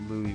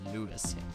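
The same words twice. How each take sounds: First: The name is pronounced the French way. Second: The name is pronounced the English way. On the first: "Louis would be the French pronunciation" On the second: "Good old American anglicized way to say it"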